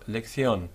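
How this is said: The c is said with a th sound. "a th, th type of sound"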